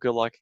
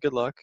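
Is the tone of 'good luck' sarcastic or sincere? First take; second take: sarcastic; sincere. First: It is said in a sarcastic tone. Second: It is said in a sincere tone. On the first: The wish is not really meant. "good luck kind of like sarcastic" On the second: The wish is genuinely meant. "but I mean like good luck"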